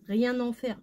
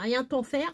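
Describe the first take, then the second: First: Rien links to en with an N sound. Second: Rien links to en with a T sound. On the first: The speaker calls it right. "Oui, on fait la liaison. ... C'est un N" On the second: The speaker calls it wrong. "Je vais pas dire"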